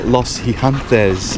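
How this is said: The name is said with a Spanish accent.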